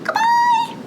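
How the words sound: It is said in a very high, squeaky voice. "Let's say goodbye as high as we can"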